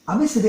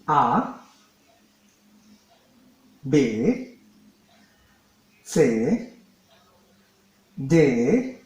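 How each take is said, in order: First: The letters are run together quickly. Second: The letters are said slowly, one by one. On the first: "I believe like I was quite fast" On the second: "I'm going to speak it slowly, one by one"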